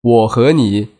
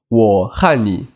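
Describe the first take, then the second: First: The middle word is said as 'he', mainland style. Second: The middle word is said as 'han', Taiwanese style.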